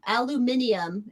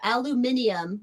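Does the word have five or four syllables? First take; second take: five; five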